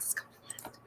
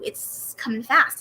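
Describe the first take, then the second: First: A hushed whisper; whispered repeat. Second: Said in the usual way. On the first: Real, not acted. Telling viewers her wigs are wearing out, in a whisper. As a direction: whisper it to yourself.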